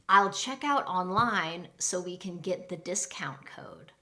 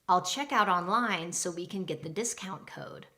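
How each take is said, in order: First: It is said at a normal pace. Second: It is said a little faster.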